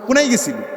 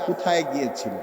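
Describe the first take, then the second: First: It is said fast, with sounds dropped. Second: It is said slowly, with every sound kept. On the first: It sounds like regional speech. The speaker calls it wrong. "এই যে দ্রুত কথাটা বলে ফেলছে" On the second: It sounds like standard speech. The speaker calls it right. "তার বলতে হবে আস্তে আস্তে করে"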